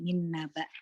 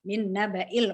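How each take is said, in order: First: The word ends abruptly on a silent glottal stop. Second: The word ends with a short 'i' vowel. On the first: The reader stops here, e.g. out of breath. "Kalau berhenti min naba" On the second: The reading continues without stopping. "kalau terus"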